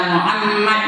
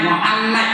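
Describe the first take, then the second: No difference in how they are said.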